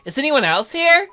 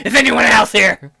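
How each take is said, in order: First: Put-on high, loud, curious girl voice; perky girlish question; girl character. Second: Loud, mocking echo of the girl; exaggerated loud demand; judging mimicry. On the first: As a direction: ask it high and eager. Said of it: "look at that look on her face". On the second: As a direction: blare it out like an accusation. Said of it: "She's judging".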